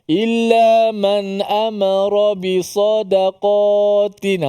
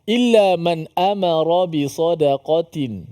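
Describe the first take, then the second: First: The 'qa' vowel is drawn out long. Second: The 'qa' vowel is kept short. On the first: The speaker calls it wrong. "qa yang terkena" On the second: The speaker calls it right. "situ tu tidak ada yang panjang"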